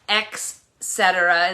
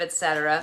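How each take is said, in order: First: It begins with an 'ex' sound. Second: It begins with an 'et' sound. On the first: The speaker calls it wrong. "X cetera instead of et cetera" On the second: The speaker calls it right. "instead of et cetera"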